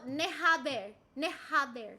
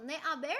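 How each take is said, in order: First: "haber" with an audible H; H pronounced. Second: Silent H in "haber"; "haber" starting straight on the vowel; H dropped. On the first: Shown as a demonstration. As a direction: breathe out a clear H to start "haber". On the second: Real, not acted. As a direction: say "haber" as "aber", no H sound. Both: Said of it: "Oh, you pronounce H".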